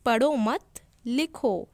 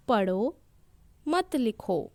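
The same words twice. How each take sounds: First: "पढ़ो मत" run together, pause, "लिखो"; slow, louder पढ़ो मत, then a separate लिखो; pause after मत. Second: "पढ़ो", a clear pause, then "मत लिखो"; pause after पढ़ो. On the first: Teacher contrasts two sentences for children, pausing after मत. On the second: Teacher shows children the comma after पढ़ो, pausing after पढ़ो. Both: Shown as a demonstration. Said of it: "इसे हम कैसे बोलेंगे".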